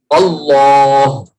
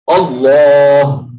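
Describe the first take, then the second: Both takes have the same delivery.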